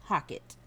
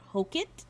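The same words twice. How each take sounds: First: "Hockett" with an open vowel, HAH-kit; alternative pronunciation. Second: "Hockett" with a long O, HOH-kit, questioning rise; unsure pronunciation. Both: Shown as a demonstration. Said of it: "Tell me how to say that".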